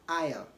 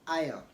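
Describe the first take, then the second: No difference in how they are said.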